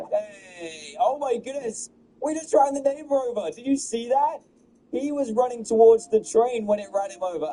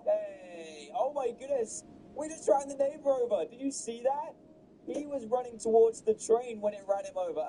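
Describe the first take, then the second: First: High-pitched, loud shouts of shock; yelling in amazed disbelief; excited yell. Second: Amazed but held back; excited yell at normal volume. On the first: Gamer shouting as the neighbor gets hit, excited yell. Neighbor run over by train. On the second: Gamer reacting to the neighbor hit, excited cries. Same clip, replayed take. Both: Real, not acted.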